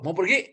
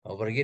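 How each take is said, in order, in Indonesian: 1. Diucapkan dengan nada jengkel dan kesal. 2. Diucapkan dengan nada tenang dan netral.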